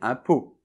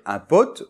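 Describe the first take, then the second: First: The final T sound is silent. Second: The final T sound is pronounced. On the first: The speaker calls it right. "on doit dire un pot" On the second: The speaker calls it wrong. "On ne doit pas dire un pote"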